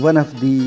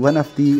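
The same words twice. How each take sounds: No difference in how they are said.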